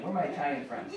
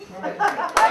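First: Said in the usual way. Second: High, loud call to friends. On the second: Pretend. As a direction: shout it out across the street. Mock Italian call, second take.

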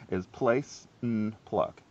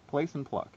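First: Key phrase spelled out slowly; slow emphatic. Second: Teacher repeating the rule; repeated emphasis. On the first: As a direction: place and pluck said slowly, each word weighted. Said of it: "if you learn nothing else today". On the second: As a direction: Place and pluck, higher and punched. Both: Shown as a demonstration.

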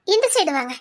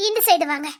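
No difference in how they are said.

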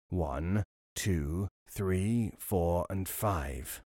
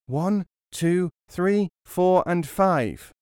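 First: Low, soft, slow counting; robber counting. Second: Put-on high, loud childlike counting; loud echo. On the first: Acted. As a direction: count slowly and quietly like a robber. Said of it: "The counting continued". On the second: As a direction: shout the numbers back as loud as possible. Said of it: "as loud as he was able".

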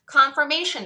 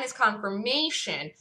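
First: "Confirmation" said higher and louder, falling; emphatic repeat. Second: Said in the usual way. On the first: Real, not acted. Trader stressing his proof to viewers, emphatic. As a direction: hammer the word "Confirmation" home.

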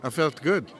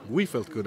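First: Said in the usual way. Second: "We" carries the emphasis, then falls away; stress on We. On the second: Real, not acted. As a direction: lean on "We" as a softer correction. Corrects herself, stressing the group.

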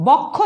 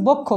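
First: বক্ষ with open ɔ, "bawk-kho"; first syllable of বক্ষ like "bawk"; as written, open vowel. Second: বক্ষ with rounded o, "bok-kho"; first syllable of বক্ষ like "bok"; as pronounced, closed o. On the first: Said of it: "লিখছি". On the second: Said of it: "উচ্চারণ করছি". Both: Shown as a demonstration.

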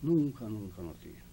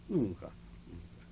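First: Said in the usual way. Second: "Nunca, nunca" softened to a slow whisper; soft, slow, breathy repeat. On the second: Real, not acted. Old man telling the interviewer he never defaulted, whispering "Nunca, nunca".

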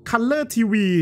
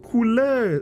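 First: คัลเลอร์ทีวี with a short a, kal-ler; fixing it to คัลเลอร์ทีวี, kal-ler tee-wee; corrected word. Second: คูลเลอร์ said with a long u vowel, koo-ler; stumbling over คูลเลอร์ as koo-ler; misread word. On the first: (แก้เป็น คัลเลอร์ทีวี เสียงอะสั้น) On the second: (อ่าน คูลเลอร์ ผิดเป็นเสียงอู) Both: Shown as a demonstration.

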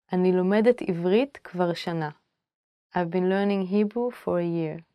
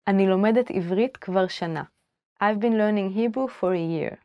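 No difference in how they are said.

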